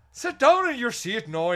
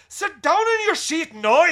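First: High, loud Northern Irish teacher order. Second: Much higher and louder slow Northern Irish yell; yelling Northern Irish teacher. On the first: Student teacher quieting a noisy class, loud Northern Irish order. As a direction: snap at the class in a strict Northern Irish accent. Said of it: "that's Northern Ireland". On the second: Teacher silencing a noisy class, slow full Northern Irish yell. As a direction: slam the desk and roar it in a Northern Irish accent. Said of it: "she'd go". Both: Retold or imitated.

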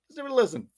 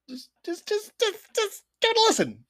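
First: Said in the usual way. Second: Much higher, eager pleading. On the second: Acted. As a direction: beg them to just listen. Begging listeners to try episode.

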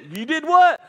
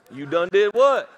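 First: Higher and louder, astonished; shocked outburst. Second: Louder, puzzled asking back; puzzled question. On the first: Pastor reacting to the confession, loudly astonished. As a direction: blurt it out in shock. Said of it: "pastor asking again". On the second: Pastor asking a churchgoer what he did, puzzled. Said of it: "first ask". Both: Retold or imitated.

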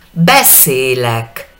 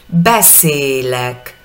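First: Beszélek drawn out slowly, the middle é long and closed; slow syllable by syllable. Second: Beszélek slowly again, long closed middle é; slow syllable by syllable. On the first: Teacher slows Beszélek down for students, long middle é. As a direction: stretch Beszélek, lean on the long é. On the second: Teacher repeats Beszélek slowly, long middle é. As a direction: drag out Beszélek, hold the é. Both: Shown as a demonstration. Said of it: "La del medio tiene tilde".

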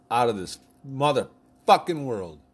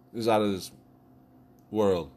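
First: Slow, loud, punching "motherfucking"; emphatic. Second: Said in the usual way. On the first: Acted. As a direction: stretch "out of this motherfucking world" and hit "motherfucking" hard. Gushing over Jennifer Aniston.

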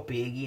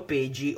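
First: "peghi" with a hard g; "peghi" with a hard g before the i; alternative pronunciation. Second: "pegi" with a j sound before the i; alternative pronunciation. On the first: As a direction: say "peghi" with g as in English "get". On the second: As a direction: say "pegi" with g as in English "gem". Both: Shown as a demonstration. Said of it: "non lo so come si pronuncia".

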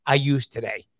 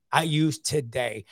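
First: Said in the usual way. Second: Slow emphatic repeat. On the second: Shown as a demonstration. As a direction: let I use today sink in slowly.

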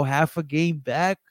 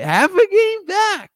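First: Said in the usual way. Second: Much higher, louder, slow and drawn out; mock emphatic. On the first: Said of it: "but half a game back". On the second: Shown as a demonstration. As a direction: stretch it out like a hype call.

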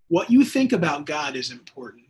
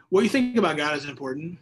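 First: Louder, stress on you; pressing the listeners, louder with weight on you; emphatic. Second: Said in the usual way. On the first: Real, not acted. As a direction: hammer home What you think.

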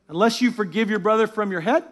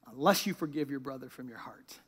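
First: Rising questioning tune ending up on "head"; questioning misreading. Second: Low, very soft and grave; hushed solemn verse. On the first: Acted. Preacher testing a wrong version of the verse, questioning rise on "head". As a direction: lift "head" at the end like a doubtful question. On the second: A narrator's reading. Preacher landing the verse's condition on the congregation, hushed. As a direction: let "heart" fall away quietly. Verse contrasted with the head version.

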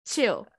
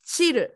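First: Said in the usual way. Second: Chill said as Japanese "chiru", vowel added; "chill" as "chiru" with a flapped r and final u; katakana chill. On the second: Shown as a demonstration. Japanese speaker showing katakana "chill" as "chiru". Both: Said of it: "like chill suru".

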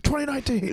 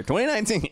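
First: High, loud shouted year; mock yell. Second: High, loud shout of the year; yelled catchphrase. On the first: Friend imitating the comic's catchphrase yell, high and loud. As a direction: belt it like a New Year's closer. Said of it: "be like". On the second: Shown as a demonstration. Comic demonstrating the yell he ends sets with, high and loud. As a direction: yell it like a set closer. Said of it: "I've been yelling twenty nineteen".

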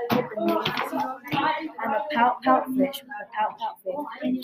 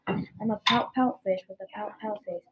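First: Drawn out slowly in a strange voice; slow gloomy refrain. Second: Said in the usual way. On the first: Acted. Fish moans his refrain to the octopus, slowly drawn out. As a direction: stretch every pout out, very slowly.

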